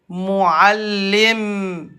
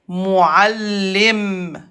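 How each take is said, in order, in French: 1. Le mot se termine sur un 'm' seul. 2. Le mot se termine sur un 'm' seul.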